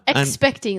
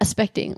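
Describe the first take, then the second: First: Every sound in the word is carefully pronounced. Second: Some sounds in the word are dropped or slurred. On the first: "that's like a lot of effort to say" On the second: "like you can just say that"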